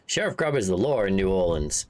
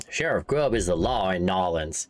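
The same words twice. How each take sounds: First: Says "New Orleans" in full, the city's usual name; New Orleans read as written. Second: Says "Nolans" as two syllables, NO-lans; corrected to Nolans. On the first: Streamer misreading the in-game town name, "New Orleans" said plainly. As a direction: reads "New Orleans" off the text. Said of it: "He is fa-, Nolans, sorry". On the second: Streamer correcting himself on the game's town name, "Nolans" said carefully. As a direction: fixes it to "Nolans" after clearing his throat. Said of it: "Nolans, sorry". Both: Real, not acted.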